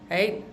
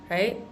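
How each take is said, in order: The two takes are said the same way.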